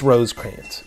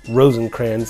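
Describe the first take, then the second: First: The first part has no n sound. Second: The first part has an added n sound. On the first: The speaker calls it right. "it's Rosecrans" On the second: The speaker calls it wrong. "like I often mispronounce"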